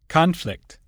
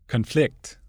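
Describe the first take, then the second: First: The stress is on the first syllable. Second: The stress is on the second syllable. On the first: It is used as a noun. "Many nouns and adjectives are stressed on the prefix" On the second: It is used as a verb. "the corresponding verb is stressed on the stem"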